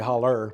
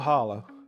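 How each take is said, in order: First: The word ends with an 'er' sound. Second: The word ends with a clear 'oh' sound. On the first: It is the everyday local way of saying it. "I normally say holler" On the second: It is the formal way of saying it. "I'll try to be all proper today"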